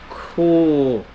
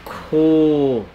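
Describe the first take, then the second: Both takes have the same delivery.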